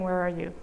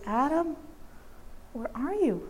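First: It is said in a condemning, harsh tone. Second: It is said in a gentle, longing tone.

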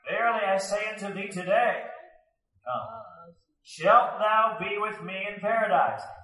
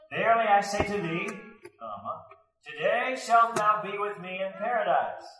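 First: The break comes right after today. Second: The break comes right after thee.

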